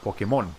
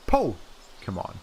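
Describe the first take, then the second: First: The stress is on the last syllable. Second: The stress is on the first syllable. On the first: This is how Spanish speakers say it. "So the mon part is uh, is the one that's accented" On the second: This is how English speakers say it. "The the accented part is right here on the Po"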